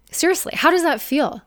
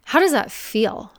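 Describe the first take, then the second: First: Higher, pressing "Seriously, how does that feel?" with weight on "does"; emphatic repeat. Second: Said in the usual way. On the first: Real, not acted. Coach pressing the viewer to face the question, emphatic. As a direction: push the question home the second time, higher.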